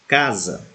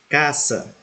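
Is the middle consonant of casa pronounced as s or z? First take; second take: z; s. First: The middle consonant is a buzzing z sound. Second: The middle consonant is a hissing s sound. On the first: This is the Portuguese pronunciation. "porém pronunciamos com som de Z" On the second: This is the Spanish pronunciation. "a letra S em espanhol sempre terá som de S"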